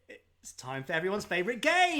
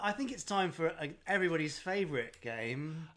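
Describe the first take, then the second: First: It is said with enthusiasm and upward inflection. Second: It is said flatly, without enthusiasm.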